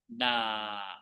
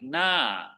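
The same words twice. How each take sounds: First: The word has a level mid tone. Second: The word has a tone other than mid. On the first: It means rice field. "this one is middle tone" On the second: It means face, front or page. "you might hear na in different tones, like na"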